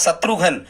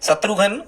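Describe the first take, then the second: Both takes have the same delivery.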